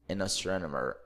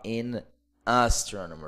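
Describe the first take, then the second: First: The n runs straight into the next vowel. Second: The n is not linked to the next vowel. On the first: The speaker calls it right. "Eu vou ligar o N com A, por isso que fica bem rápido" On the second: The speaker calls it wrong. "eu não vou falar in astronomer"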